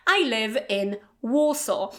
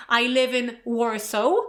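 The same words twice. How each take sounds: First: "Warsaw" ending cleanly with no w; correct Warsaw. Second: "Warsaw" with an extra w sound at the end; wrong Warsaw. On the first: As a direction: end "Warsaw" with an open vowel. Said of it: "No w at the end". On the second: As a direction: add a w to the end of "Warsaw" on purpose. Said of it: "you can't say". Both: Shown as a demonstration.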